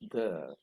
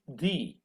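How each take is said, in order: First: It is the pronunciation used before consonant sounds. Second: It is the pronunciation used before vowel sounds. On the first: "When T H E plus a consonant sound, the, it becomes the" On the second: "T H E plus a vowel sound, T H E becomes the"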